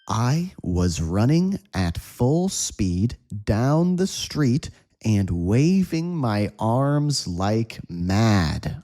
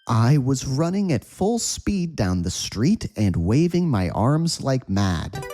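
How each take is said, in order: First: The sentence is read at a slow pace. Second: The sentence is read at a fast pace. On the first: "Slow read, say with me" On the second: "Let's say this at a quick speed"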